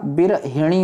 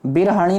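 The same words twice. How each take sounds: First: बिरहिणी with hi in the middle; short i after h in बिरहिणी; correct form. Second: बिरहणी with ha in the middle; wrong form. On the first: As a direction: say बिरहिणी as bir-hi-ṇee. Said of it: "होता है मेरे भाई". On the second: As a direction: say बिरहणी as bir-ha-ṇee. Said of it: "नहीं होता". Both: Shown as a demonstration.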